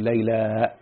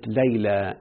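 First: The vowel is stretched and ends in a glottal stop. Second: The word ends in a short plain vowel. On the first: "لما أمدها تجيب بعدها همزة" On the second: "دي اسمها ألف مقصورة"

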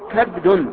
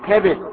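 First: Open a on the first letter, no vowel after. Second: Open a on the first letter, i on the second. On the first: "بفتح الكاف وسكون الباء" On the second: "بفتح الكاف وكسر الباء"

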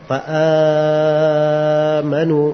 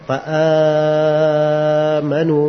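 First: The long vowel is held for four beats. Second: The same.

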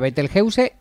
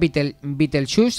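First: The name is pronounced with Spanish sounds. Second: The name is pronounced with English sounds. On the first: "Betelgeuse está bien, porque es castellanizado" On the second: "Betelgeuse sería en inglés"

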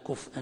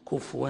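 First: No vowel follows the f before the glottal stop. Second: A w sound replaces the glottal stop. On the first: "بالإسكان" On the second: "هكذا بالإبدال حفص"

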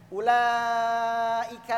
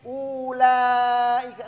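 First: The first vowel u is short. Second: The first vowel u is drawn out long. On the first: The speaker calls it right. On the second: The speaker calls it wrong.

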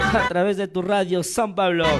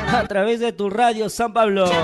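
No difference in how they are said.

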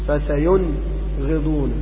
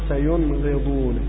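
First: A short break separates the n from the gh. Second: The n flows straight into the gh. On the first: The speaker calls it wrong. "لا تقول فسينغضون، هذا فصل أو سكت" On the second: The speaker calls it right. "إنما تنطقها هكذا فسينغضون بنون واضح"

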